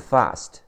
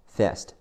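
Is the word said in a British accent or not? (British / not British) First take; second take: British; not British. First: It is said in a British accent. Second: It is said in a non-British accent.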